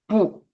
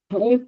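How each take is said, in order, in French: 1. Le mot se dit sur un ton moyen. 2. Le mot se dit sur un ton haut. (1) "avec le ton moyen" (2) "cette fois-ci avec le ton O"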